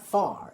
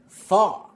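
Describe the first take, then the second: First: The final R sound is pronounced. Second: The final R sound is dropped. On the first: "So it's not" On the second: "The R sound at the end of the word is dropped"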